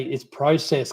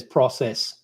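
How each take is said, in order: First: Process with a long o, PROH-cess; Australian pronunciation. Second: Process with a short o, PRAH-cess; American pronunciation. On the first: Mother correcting son Connor, process as proh-cess. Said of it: "And I say". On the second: Mother imitating son's American process, prah-sess. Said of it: "Oh, that's American". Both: Retold or imitated.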